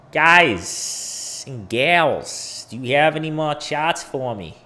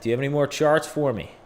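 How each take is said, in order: First: Drawn-out opening in a mock Boston accent. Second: Quick, hammed-up Boston accent. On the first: Streamer asks chat for more charts, mock Boston accent. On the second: Streamer repeats his question to chat, hammed-up Boston accent. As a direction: rattle it off in a put-on Boston accent. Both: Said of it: "It's my Boston accent".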